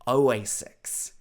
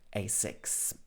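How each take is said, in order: First: The word begins with an extra 'O' sound. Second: The word begins directly with an 'A' sound. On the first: The speaker calls it wrong. "I used to think it was Oasics. But of course, I was wrong" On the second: The speaker calls it right. "It should be Asics"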